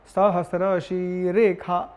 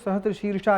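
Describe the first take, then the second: First: The second word has a kh sound with an added e. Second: The second word has an sh sound. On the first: This is how the mantra is recited in this tradition. "मंत्र के क्रम में ... एकार घटित उच्चारण" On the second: This is how ordinary people say it. "सामान्य लोग"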